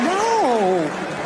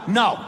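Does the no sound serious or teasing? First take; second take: teasing; serious. First: The no sounds playful and teasing. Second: The no sounds firm and serious.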